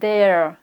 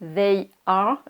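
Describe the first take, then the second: First: It is said as one contracted syllable. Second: It is said as two full separate words.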